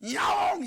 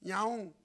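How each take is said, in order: First: The meow sounds like an impatient demand. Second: The meow sounds like a gentle request.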